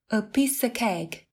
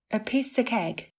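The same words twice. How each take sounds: No difference in how they are said.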